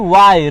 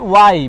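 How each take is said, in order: Both takes have the same delivery.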